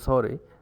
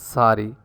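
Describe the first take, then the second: First: The vowel rhymes with story. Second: The vowel rhymes with starry. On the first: This is the Canadian way. The speaker calls it right. "it rhymes with story rather than with starry" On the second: This is not the Canadian way. The speaker calls it wrong. "You don't say uh, sorry"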